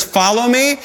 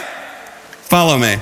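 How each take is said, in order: First: Said in the usual way. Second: Low, slow, hushed "Follow me", drawn out; imitating the rabbi, quietly and very slowly; mock solemn call. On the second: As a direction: drop it soft and slow like a tease. Mocking rabbi voice, retold.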